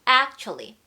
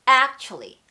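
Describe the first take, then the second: The two takes are said the same way.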